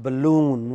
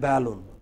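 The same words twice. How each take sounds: First: The stress is on the second syllable. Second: The stress is on the first syllable. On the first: The speaker calls it right. "It is balloon" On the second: The speaker calls it wrong. "It is not balloon"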